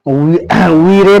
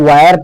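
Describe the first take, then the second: First: The vowel sounds like 'ee', with a final 're'. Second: The vowel sounds like 'eye', ending in 'er'. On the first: The speaker calls it wrong. "वीरे पढ़ने पर गलत होगा" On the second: The speaker calls it right. "इसको वायर पढ़ना है"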